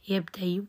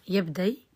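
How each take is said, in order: First: يبدي with a brief faint u after the y; rawm. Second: يبدي ending on a plain y glide; ibdal to ya. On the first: Teacher shows the next form, rawm on the ya. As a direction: say يبدي as "yabdayu", a trace of damma. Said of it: "عندي إشمام وروم". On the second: Teacher asks how it is read, hamza becomes ya. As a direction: say يبدي as "yabday", nothing after the ya. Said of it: "إبدالها ياء". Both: Shown as a demonstration.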